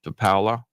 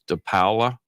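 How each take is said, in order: First: The name is said with an Italian pronunciation. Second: The name is said with an Italian pronunciation.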